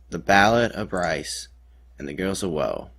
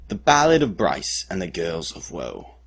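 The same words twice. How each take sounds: First: Said in the usual way. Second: Theatrical balladeer announcing a title. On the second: Shown as a demonstration. Storyteller presents the dramatic retelling of the cliff rescue, ballad voice. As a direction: declaim it as a grand ballad title. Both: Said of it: "in my best ballad voice".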